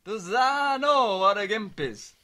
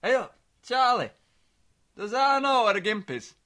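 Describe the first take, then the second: First: Slow, louder imitation of dad asking; dad's voice. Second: Louder, puzzled dad on the phone; a hint of a baffled old father; dad's voice. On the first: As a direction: draw it out like a baffled father. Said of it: "that's what he kept saying". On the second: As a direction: son imitates dad calling late with a question. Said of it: "He called me again last night".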